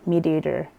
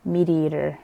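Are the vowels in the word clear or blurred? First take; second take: blurred; blurred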